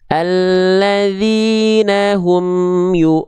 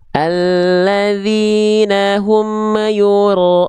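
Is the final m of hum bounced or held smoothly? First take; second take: smooth; bounced. First: The m of hum is held smoothly, no bounce. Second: The m of hum is released with a bounce. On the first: The speaker calls it right. "yang ini yang betul nih" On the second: The speaker calls it wrong. "jangan sampai dibaca mema memantul"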